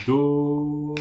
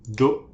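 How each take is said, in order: First: Held note. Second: Said in the usual way. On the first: Shown as a demonstration. Teacher holds Do for students for two beats. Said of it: "On va attendre deux temps". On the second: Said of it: "je vais jouer une note par claquement de doigts".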